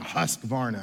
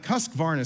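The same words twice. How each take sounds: First: Husqvarna said low, like a machine's growl; string trimmer sound. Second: Said in the usual way. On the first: Shown as a demonstration. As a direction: play the trimmer saying Husqvarna, pitched low. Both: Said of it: "sounds like a string trimmer that would".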